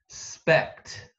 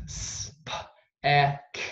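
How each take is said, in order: First: Said in the usual way. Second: Spect broken into separate sounds, s-p-e-c-t; sounded out. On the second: Shown as a demonstration. Teacher pounding out a word for spelling, sounded out. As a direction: say spect sound by sound, gaps between. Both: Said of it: "Pounder ready?".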